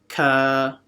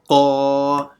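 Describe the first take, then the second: First: It is said light, like a plain k. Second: It is said deep, with a full mouth. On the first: The speaker calls it wrong. "they read this one exactly the same" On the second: The speaker calls it right. "This one is full mouth"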